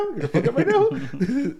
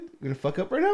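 First: High laughing taunt, louder; mock taunt breaking into a laugh; mocking inner voice, laughing. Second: Mild mock taunt; a sly taunt to yourself; teasing inner voice, first take. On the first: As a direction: crack up while taunting yourself. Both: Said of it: "a little, like".

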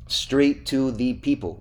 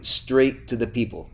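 First: "straight to the people", slow and spaced out; emphatic repeat. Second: Said in the usual way. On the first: Shown as a demonstration. Host repeats it to prompt his co-host, "straight to the people" slowly stressed. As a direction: spell out "straight to the people" word by word.

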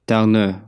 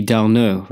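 First: Darneux with a French eu ending; mock French. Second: Darneux with a nasal French eu vowel; mock French. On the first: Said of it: "sounds more like an E". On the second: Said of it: "darn it is a French word". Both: Shown as a demonstration.

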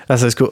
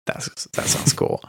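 First: Said in the usual way. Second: Soft breathy whisper, slowly. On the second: Pretend. Repeats line whispered, then plain.

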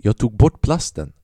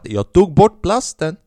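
First: Said in the usual way. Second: Higher, louder and slow, drawn out; mock pleading. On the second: Pleading with the dealer, slow and loud. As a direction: stretch it out like a desperate excuse. Insisting to the dealer about plastic.

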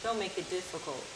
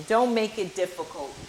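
First: Softer repeat to herself; quiet echo. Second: Firm, with weight on Don't; emphatic. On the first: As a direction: say it again, dropped right down and much softer. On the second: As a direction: lean into the word Don't, said clearly and fully. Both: Shown as a demonstration.

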